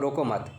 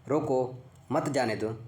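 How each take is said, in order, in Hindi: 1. 'mat' के ठीक बाद विराम है। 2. 'roko' के ठीक बाद विराम है। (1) "हल्का से रुकेंगे, फिर हम लोग जाने दो" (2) "यहाँ पर हो गया अल्प विराम"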